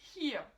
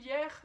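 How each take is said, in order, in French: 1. Il a un H et un son final comme A. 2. Il se prononce comme le mot français. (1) "ça se prononce hier, Avec le H au début et le E R qui se prononce presque comme un A" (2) "on se dit ah ouais facile"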